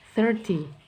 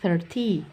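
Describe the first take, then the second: First: The word ends short and clipped. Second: The second syllable is long and drawn out. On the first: The speaker calls it right. "dibacanya singkat saja" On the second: The speaker calls it wrong. "Tidak perlu dibanyakan"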